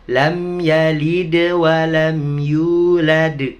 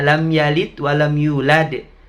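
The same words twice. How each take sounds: First: The consonants at 'yalid' and 'yulad' are bounced. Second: The consonants at 'yalid' and 'yulad' are not bounced. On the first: The speaker calls it right. "Begitu bacanya" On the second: The speaker calls it wrong. "Apalagi ya"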